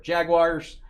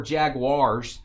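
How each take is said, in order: First: Said in the usual way. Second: "Jaguars" drawn out slowly, second syllable stretched; alternate pronunciation. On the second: Shown as a demonstration. Host offers viewers another way to say the team, "Jaguars" drawn out. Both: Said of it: "however you wanna say it".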